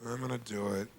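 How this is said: It sounds weak and unconvinced.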